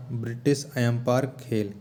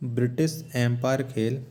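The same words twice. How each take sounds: The two takes are said the same way.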